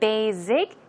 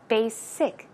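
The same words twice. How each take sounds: First: The middle consonant is a buzzing Z sound. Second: The middle consonant is a hissing S sound. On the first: The speaker calls it wrong. "Z sound, that is incorrect" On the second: The speaker calls it right. "Try to pronounce it with a S S"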